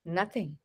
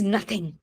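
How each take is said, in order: First: Very soft, low "Nothing." sinking away; loaded nothing. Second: Quiet, dismissive "Nothing." dropped low; curt nothing. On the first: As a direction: breathe "Nothing." out quietly, full of held-back feeling. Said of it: "this nothing, which I've just spoken". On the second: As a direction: say "Nothing." softly and flatly, shutting the question down. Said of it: "now look at the intonation also". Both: Shown as a demonstration.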